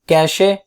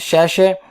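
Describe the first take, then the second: First: The word begins with a k sound. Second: The word begins with an sh sound. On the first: "कैशे is right word" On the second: "इसे कुछ लोग बोलते हैं शैशे"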